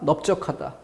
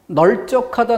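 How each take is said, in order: First: The first syllable ends with a P sound. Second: The first syllable ends with an L sound. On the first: The speaker calls it right. "비읍이지" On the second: The speaker calls it wrong. "리을이에요"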